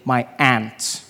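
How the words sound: It is said in an American accent.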